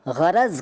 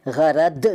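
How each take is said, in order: First: Said in the usual way. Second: गरद ending on d. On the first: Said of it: "गरद नहीं कहते". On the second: Shown as a demonstration. Teacher showing what is not said, गरद with d for z. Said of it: "नहीं कहते".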